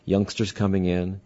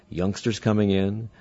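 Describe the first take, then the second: No difference in how they are said.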